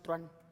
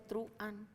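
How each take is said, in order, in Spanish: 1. Las vocales se unen en una sola sílaba. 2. Las vocales se separan en dos sílabas. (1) "no truan" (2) "es un hiato. En muchos países sí se dice truan"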